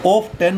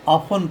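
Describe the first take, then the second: First: ऑफ टेन as "ohf-TEN", T sounded; rejected T reading. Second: ऑफन as "AA-fan", no T; silent T reading. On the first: Teacher shows what not to read, ऑफ टेन with T. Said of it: "ऑफ टेन नहीं पढ़ेंगे". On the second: Teacher explains the silent T, ऑफन as aa-fan. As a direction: drop the T in ऑफन, open aa. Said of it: "इसमें T silent रहेगा". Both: Shown as a demonstration.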